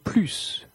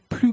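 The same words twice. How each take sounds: First: The word ends with a clear s sound. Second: The word ends on the vowel, no s sound. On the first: "Le S est prononcé" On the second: "Le S n'est pas prononcé"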